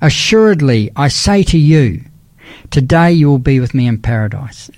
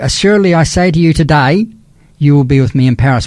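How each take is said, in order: First: The pause comes before 'today'. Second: The pause comes after 'today'. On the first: The listener will be in paradise that same day. "So if we said it this way" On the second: The promise is made today; paradise will come one day later. "I'm saying you today that one day you'll be with me in paradise"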